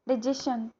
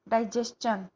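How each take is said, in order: First: The ending is said with a shun sound. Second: The ending is said with a chun sound. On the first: The speaker calls it wrong. "चन को नहीं बोलते हैं, शन ही बोलते हैं" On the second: The speaker calls it right. "वो चन का आना चाहिए"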